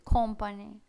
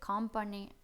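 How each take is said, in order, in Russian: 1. Гласный звучит как округлое О. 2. Гласный звучит как открытое А. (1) "звук О в британском варианте звучит как О" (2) "в американском это будет company ... ближе к А"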